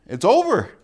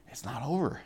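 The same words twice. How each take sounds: First: Loud, high punch on "it's over"; emphatic finality. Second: Much softer "It's not over"; hushed assurance. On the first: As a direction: declare "it's over" with force. Blunt end of life's list. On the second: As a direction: gently counter with a quiet "It's not over". Answers it with eternity. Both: Shown as a demonstration.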